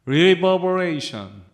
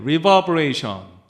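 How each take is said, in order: No difference in how they are said.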